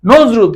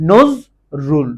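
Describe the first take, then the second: First: Said in the usual way. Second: নজরুল slowly in two separated syllables. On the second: Shown as a demonstration. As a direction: split নজরুল into two beats with a pause. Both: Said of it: "কয়বার উচ্চারণ করতে পারো".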